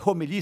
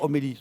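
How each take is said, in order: First: The word starts with a breathy h sound. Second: The word starts directly with a vowel. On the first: The word sounds lively and wakes people up. The speaker calls it right. "si encore le H était aspiré, on dirait homélie, ça réveille le monde" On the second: The word sounds dull and sleep-inducing. The speaker calls it wrong. "c'est un somnifère"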